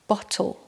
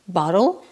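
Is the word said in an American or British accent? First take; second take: British; American. First: It is said in a British accent. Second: It is said in an American accent. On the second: "américain"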